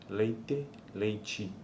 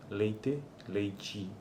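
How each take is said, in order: The two takes are said the same way.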